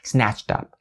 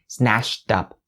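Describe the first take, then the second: First: A clear ch sound links into up. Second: An sh sound links into up. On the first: The speaker calls it right. "the remaining ch sound still has to be distinctly pronounced" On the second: The speaker calls it wrong. "They'll say snatched up, snatched up. It's all wrong"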